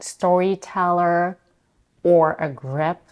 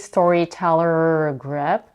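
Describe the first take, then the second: First: The word 'or' is said with a full vowel. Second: The word 'or' is reduced to a weak er. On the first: The speaker calls it right. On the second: The speaker calls it wrong. "She doesn't say"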